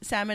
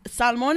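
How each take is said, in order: First: It is said with an English pronunciation. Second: It is said with a Spanish pronunciation. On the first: "salmon is in English" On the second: "salmon is in Spanish"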